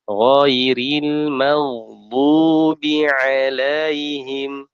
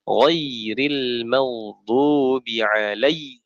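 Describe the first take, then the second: First: The diphthong is pronounced softly and smoothly. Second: The diphthong is pronounced sharply and abruptly. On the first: The speaker calls it right. "seperti itu ya" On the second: The speaker calls it wrong. "Jangan ... itu namanya tajam"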